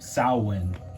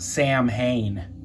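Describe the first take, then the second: First: The word starts without any 'Sam' sound. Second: The word starts with a clear 'Sam' sound. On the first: The speaker calls it right. "it's pronounced more like that, Samhain. There's no Sam in there" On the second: The speaker calls it wrong. "this ain't pronounced Samhain. That's not how you say that"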